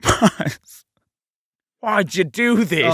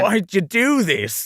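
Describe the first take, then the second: First: It is said in an Australian accent. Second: It is said without the Australian accent.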